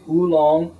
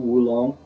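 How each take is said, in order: First: The word begins with a plain oo vowel. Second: The word begins with a w sound. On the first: "some people will say oolong, o double o" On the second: "the Chinese uh, mainland pronunciation is often Wulong, W U"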